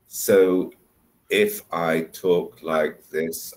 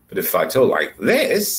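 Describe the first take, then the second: First: The voice is flat, with no pitch movement. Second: The voice goes up and down a lot.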